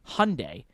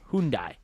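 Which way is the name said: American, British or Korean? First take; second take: American; Korean. First: It is said the American way. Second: It is said the Korean way. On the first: "Americans say Hyundai" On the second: "Koreans say Hyundai"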